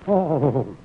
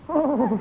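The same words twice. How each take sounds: First: It sounds angry. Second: It sounds ecstatic.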